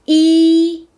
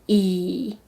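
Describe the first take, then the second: First: The pitch stays high and level. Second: The pitch dips low, then rises.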